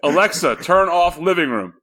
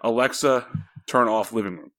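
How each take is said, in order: First: The command is said at a louder volume. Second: The command is said at a quieter volume.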